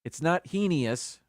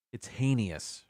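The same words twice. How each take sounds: First: "heinous" said "hee-nee-us", slow; "heinous" as hee-nious; wrong "hee-nious". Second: "heinous" as "hay-nus"; "heinous" with a long A, hay-nous; correct "hay-nous". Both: Shown as a demonstration.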